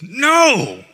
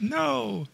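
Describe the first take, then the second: First: It is said forcefully, with oomph. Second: It is said plainly, without force.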